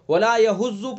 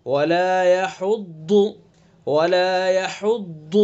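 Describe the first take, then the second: First: يَحُضُّ said quickly with a thin z in place of ḍād; wrong light z sound. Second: يَحُضُّ with a full, heavy ḍād from the side of the tongue. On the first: Retold or imitated. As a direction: mimic the common mistake, يَحُضُّ as yahuzu. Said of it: "يَحُضُّ غلط ہے یہ". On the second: Shown as a demonstration. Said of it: "پر کر کے پڑھیں گے".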